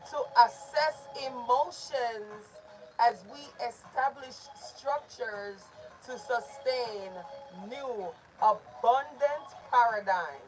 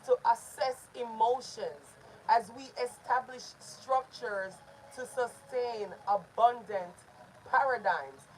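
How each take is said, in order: First: It is said slowly, syllable by syllable. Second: It is said at a normal, flowing speed.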